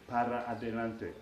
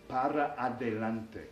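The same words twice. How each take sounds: First: Every word is said in full. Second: Every word is said in full.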